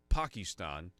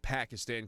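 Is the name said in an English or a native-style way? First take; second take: native-style; English. First: The name is said with a native-style pronunciation. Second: The name is said with a plain English pronunciation. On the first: The speaker calls it right. "Call it" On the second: The speaker calls it wrong. "don't call it"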